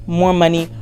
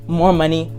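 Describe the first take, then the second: No difference in how they are said.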